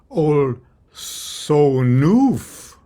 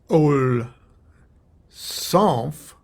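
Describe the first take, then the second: First: A vowel is inserted between the final consonants. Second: The word ends with consonants side by side. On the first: "add a vowel sound" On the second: "instead of"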